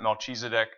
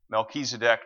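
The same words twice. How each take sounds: First: The middle consonant is a CH sound. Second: The middle consonant is a K sound. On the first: The speaker calls it wrong. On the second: The speaker calls it right. "it's always the K sound"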